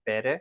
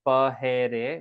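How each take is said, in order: First: No h sound is heard between the vowels. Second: An h sound is heard between the vowels. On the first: The speaker calls it right. "We pronounce it pere" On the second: The speaker calls it wrong. "we don't pronounce it pahere"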